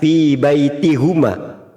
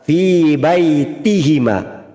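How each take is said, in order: First: The pronoun is said with a u vowel. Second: The pronoun is said with an i vowel. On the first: The speaker calls it wrong. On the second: The speaker calls it right.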